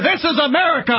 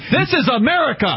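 First: It is shouted at a much louder volume. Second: It is said at a normal, less loud volume.

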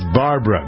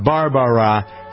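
First: The name is said with two syllables. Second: The name is said with three syllables. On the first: The speaker calls it right. "it's Barbara, B-A-R-B-R-A" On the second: The speaker calls it wrong. "it's not Barbara"

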